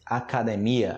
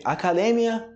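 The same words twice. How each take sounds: First: "academia" stressed on MI, a-ca-de-MI-a; Portuguese. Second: "Academia" stressed on DE, a-ca-DE-mya; higher Spanish "Academia", stress on DE. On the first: Teacher answering in Portuguese, "academia" stressed on MI. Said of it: "academia em português". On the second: Teacher reading the Spanish word first, "Academia" stressed on DE. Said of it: "Em espanhol primeiro". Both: Shown as a demonstration.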